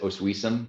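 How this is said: The name is said with English-style sounds. "which is English, we might pronounce it Oswiecim"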